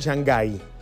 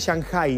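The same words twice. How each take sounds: First: The name is said with a Spanish-style pronunciation. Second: The name is said with a Chinese-style pronunciation. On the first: The speaker calls it wrong. "No Shanghái" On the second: The speaker calls it right. "Se pronuncia exactamente Shanghái, ¿no?"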